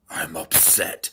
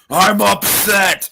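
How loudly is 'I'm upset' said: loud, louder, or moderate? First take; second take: moderate; loud. First: It is said at a moderate volume. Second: It is said loudly, raising the voice. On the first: "say you're upset" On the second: "Say it louder"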